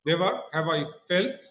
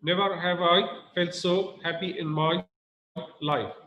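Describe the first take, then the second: First: Never lifted and leaned on; stress on Never. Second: Said in the usual way. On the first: Shown as a demonstration. Teacher demonstrates the stressed Never to the class. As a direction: hit the word Never, then go on. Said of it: "we put more stress on never". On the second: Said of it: "You need to put a lot of stress on never".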